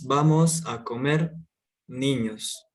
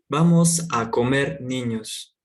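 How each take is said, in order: First: There is a pause before "niños". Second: It is said straight through without a pause.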